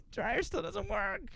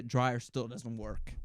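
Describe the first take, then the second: First: Slow, much higher mocking repeat. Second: Said in the usual way. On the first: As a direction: whine it slowly up high. Repeats in mock voice.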